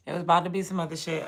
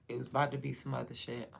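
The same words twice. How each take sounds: First: Louder, fast, punchy; emphatic repeat. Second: Said in the usual way. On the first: Real, not acted. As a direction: hit it harder the second time.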